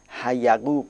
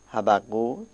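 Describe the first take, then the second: First: The second consonant is a y sound, not doubled. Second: The second consonant is a doubled b sound. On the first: The speaker calls it wrong. "گاهی ایرانی ها به اشتباه یه نقطه دیگه در پایین میگذارن، تشدید بالا رو بر میدارن، حیقوق میخوانن" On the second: The speaker calls it right. "اما تلفظ صحیح این واژه حبقوق"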